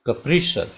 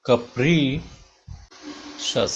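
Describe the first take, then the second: First: Said in the usual way. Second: Capricious drawn out slowly, with a long held PRI and a gap before SHUS; slow teaching breakdown of "capricious", ca-PREE... shus; broken into syllables. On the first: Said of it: "then it will go capricious". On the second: Shown as a demonstration. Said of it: "then it will rise at p".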